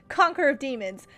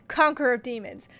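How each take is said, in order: Both takes have the same delivery.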